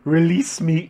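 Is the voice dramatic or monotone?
dramatic. The voice is expressive and dramatic, not flat. "That's not the monotone voice that I was told it had"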